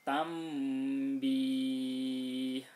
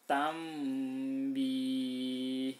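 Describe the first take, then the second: The two takes are said the same way.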